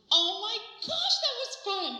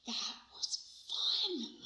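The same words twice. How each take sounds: First: High, drawn-out, delighted exclamation; thrilled outburst. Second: Hushed, savored delight to a friend; thrilled whisper. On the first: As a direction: gush to a friend with raised pitch. Thrilled outburst to friend, acted. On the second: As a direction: whisper it very slowly. Thrilled aside to friend, acted. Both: Acted.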